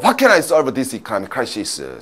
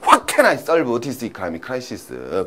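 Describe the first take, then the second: First: The sentence is spoken at a normal, quicker pace. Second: The sentence is spoken slowly and deliberately.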